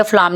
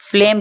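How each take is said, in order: First: फ्लाम with an open "aa"; "aa" for the vowel in फ्लाम; wrong pronunciation. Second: फ्लेम with an "ey" vowel; correct vowel. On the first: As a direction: say फ्लाम as "flaam". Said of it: "फ्लाम नहीं पढ़ेंगे". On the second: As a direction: say फ्लेम as "fleym". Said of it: "फ्लेम पढ़ेंगे". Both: Shown as a demonstration.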